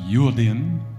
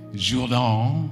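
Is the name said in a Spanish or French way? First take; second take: Spanish; French. First: The name is said the Spanish way. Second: The name is said the French way.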